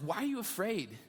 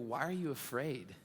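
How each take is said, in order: First: It is said in a sarcastic, frustrated tone. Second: It is said in a gentle, compassionate tone. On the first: The listeners are being scolded for lacking faith. "This sarcastic coach" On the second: The speaker cares deeply and is still present. "I read it in a compassionate voice"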